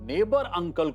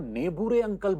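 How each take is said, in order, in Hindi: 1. यह शब्द 'neighbour' जैसा बोला जाता है, अंत में -bar के साथ। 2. यह शब्द 'nebooray' जैसा बोला जाता है, अंत में -ray जुड़ा हुआ।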